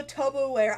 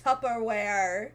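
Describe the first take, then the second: First: The Tupperware said as toe-per-ware, with an oh sound; joke mispronunciation. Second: Tupperware said tuh-per-ware, short uh; proper pronunciation. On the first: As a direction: Tupperware with a long o, joking. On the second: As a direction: correct Tupperware with the uh vowel. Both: Shown as a demonstration. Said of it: "I know it's pronounced Tupperware".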